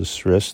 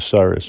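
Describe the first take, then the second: First: No vowel is heard between the s and r. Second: A vowel is heard between the s and r. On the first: The speaker calls it right. "the right pronunciation is a sris" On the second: The speaker calls it wrong. "I call it a saris"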